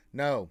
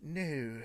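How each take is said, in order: First: "No." as one short Spanish word; deadpan Spanish "No.". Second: "No," as a drawn-out English word; deadpan, stretched English "No,". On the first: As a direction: say "No." plainly as if in Spanish. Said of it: "I'll say it in Spanish". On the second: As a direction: say "No," slowly as if translating into English. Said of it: "Or I'll say it in English". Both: Shown as a demonstration.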